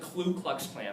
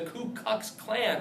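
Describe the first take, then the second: First: The first word starts with a kl sound. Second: The first word starts with a plain k sound. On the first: The speaker calls it wrong. "not the Klu Klux Klan. That's what kids say all the time" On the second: The speaker calls it right. "Don't mispronounce that"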